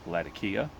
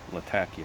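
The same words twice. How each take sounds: First: It is said the way most English speakers say it. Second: It is said the way local Syrians say it. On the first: "lots of people call it Latakia" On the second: "that's how they pronounce it"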